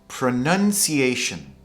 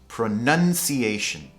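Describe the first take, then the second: Both takes have the same delivery.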